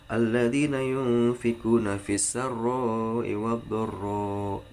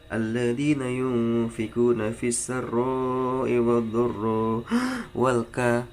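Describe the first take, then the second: First: The breath break comes at the end of a phrase. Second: The breath break cuts off in the middle of a word. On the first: The speaker calls it right. "baru ambil nafas" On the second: The speaker calls it wrong. "pencuri nafas, jadi ngambil nafas di tengah-tengah"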